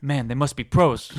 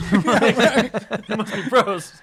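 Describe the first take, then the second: First: Said in the usual way. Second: Much higher and louder, slow, through laughter; laughing dopey echo. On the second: Retold or imitated. Repeating the gas station line, high and laughing. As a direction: drag it out in a high goofy voice while laughing. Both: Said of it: "And she's like".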